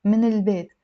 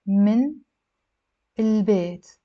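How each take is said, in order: First: من البيت run together as minil-beit; liaison. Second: من, long pause, then البيت; separated words. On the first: Teacher telling learners to always link, with liaison. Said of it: "always do a liaison". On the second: Teacher building the phrase for learners, unlinked. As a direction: break من البيت into two words. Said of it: "Again, always do a liaison". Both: Shown as a demonstration.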